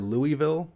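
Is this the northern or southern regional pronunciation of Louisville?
northern. It is said the northern and western way. "Usually in the north and the west, you'll often hear"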